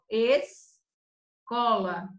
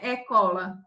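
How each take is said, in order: First: The S is clearly sounded before the C. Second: The S is dropped before the C. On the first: The speaker calls it right. "ela forma dois sons, ó" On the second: The speaker calls it wrong. "Não é ecola"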